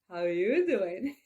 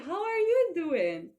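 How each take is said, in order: First: It sounds smooth and flirtatious. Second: It sounds bright and cheerful. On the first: The speaker is playfully chatting someone up. "Or like Joey in Friends" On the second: The speaker is glad to see someone after a long time. "when you see a person after a long time"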